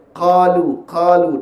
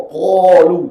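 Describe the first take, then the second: First: Qalu with the mouth cavity open, thick and raised; correct full qaf. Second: Qalu said loud with a thin, forward qaf; wrong thin qaf. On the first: Teacher correcting the qaf in qalu. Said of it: "buka rongga mulut qaf saja". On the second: Teacher showing the wrong Qalu to students. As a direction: say Qalu wrongly, mouth not opened. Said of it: "tak boleh baca gitu". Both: Shown as a demonstration.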